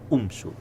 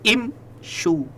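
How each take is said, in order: First: The word begins with a 'u' vowel. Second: The word begins with an 'i' vowel. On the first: The speaker calls it wrong. "bukan umsyu" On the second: The speaker calls it right. "Jadi imsyu"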